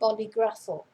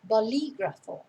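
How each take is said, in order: First: The stress falls on a different syllable. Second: The stress falls on the second syllable. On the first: The speaker calls it wrong. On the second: The speaker calls it right. "notice where the accent is on the I in the middle"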